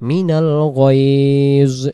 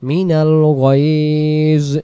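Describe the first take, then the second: The two takes are said the same way.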